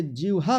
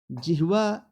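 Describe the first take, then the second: First: जिह्वा said as "jiv-ha"; v before h in जिह्वा; wrong pronunciation. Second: जिह्वा said as "jih-va"; h before v in जिह्वा; correct pronunciation. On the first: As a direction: flip the cluster in जिह्वा. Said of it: "ये गलत है". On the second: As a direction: breathe the h first in जिह्वा. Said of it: "जिह्वा सही है". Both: Shown as a demonstration.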